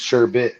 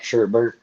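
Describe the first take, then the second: First: The word has no extra R sound. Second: The word has an extra R sound. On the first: The speaker calls it right. "People say it's sherbet, apparently there's no R in it" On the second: The speaker calls it wrong. "not sherbert. Apparently I've been saying it wrong"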